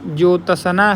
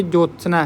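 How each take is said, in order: First: "ज्योत्सना" stretched slowly, with a vowel after त and स; misspelt reading. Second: "ज्योत्सना" with त, स and न run together; joined consonants. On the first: Teacher reading a spelling option to students, misspelt reading. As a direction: sound out "ज्योत्सना" loosely as jo-ta-sa-na. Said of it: "वर्तनी की दृष्टि से कौन सा शब्द सही है". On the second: Teacher reading a spelling option to students, joined consonants. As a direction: say "ज्योत्सना" compactly as jyot-sna. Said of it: "इसमें त, स और न". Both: Shown as a demonstration.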